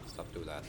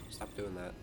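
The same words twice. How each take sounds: The two takes are said the same way.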